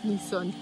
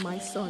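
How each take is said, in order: First: The first word sounds like 'me'. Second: The first word sounds like 'my'. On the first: The speaker calls it right. "it's called Me Son" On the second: The speaker calls it wrong. "it's not called My Son"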